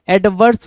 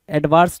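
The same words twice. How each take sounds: First: Ad-VURS; correct adverse. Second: Ad-VAARS; wrong adverse. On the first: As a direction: say एडवर्स with a short "vur". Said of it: "एडवर्स होता है". (एडवर्स में छोटा "वर्स" बोलें) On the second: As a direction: say एडवांस as "ed-vaars", long "aa". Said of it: "एडवांस नहीं". (एडवांस को "एडवार्स" बोलें) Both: Shown as a demonstration.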